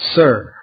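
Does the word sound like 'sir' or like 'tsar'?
sir. The vowel sounds like the usual 'sir'.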